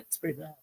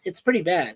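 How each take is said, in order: First: Much softer, a muttered afterthought; quiet echo. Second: Said in the usual way. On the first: Real, not acted. Streamer to chat about the war, quietly repeating. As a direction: let it fall away to almost nothing.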